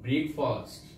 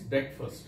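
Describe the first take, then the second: First: The first part sounds like 'brake'. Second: The first part sounds like 'brek'. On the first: The speaker calls it wrong. "We generally mispronounce this word by saying it breakfast" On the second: The speaker calls it right. "right pronunciation is breakfast"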